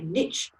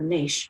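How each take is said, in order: First: It is said in an American accent. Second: It is said in the speaker's non-American accent.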